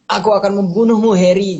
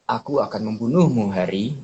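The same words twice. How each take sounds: First: The line is said forcefully and intensely. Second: The line is said softly and gently. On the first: "si Voldemort tuh ngomong" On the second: "Kalau misalnya kita jadiin soft spoken"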